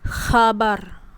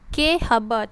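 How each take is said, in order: First: The k and h blend into one sound. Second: The k is said apart before the word. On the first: The speaker calls it right. "K dengan H tu bergabung" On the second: The speaker calls it wrong. "tak boleh"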